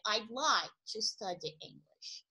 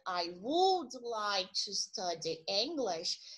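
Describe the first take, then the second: First: Would is shortened to a d sound. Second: Would is said as a full separate word. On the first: "Na contração, para você falar mais rápido, ficaria" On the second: "Uma frase que seria"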